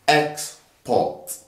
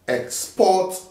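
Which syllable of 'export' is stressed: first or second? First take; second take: first; second. First: The stress is on the first syllable. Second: The stress is on the second syllable. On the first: It is used as a noun. "we'll put the stress in the first syllable when two syllabic words are used as nouns" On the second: It is used as a verb. "we'll put the stress in the second syllable throughout. Whenever two uh, syllabic words are used as verb"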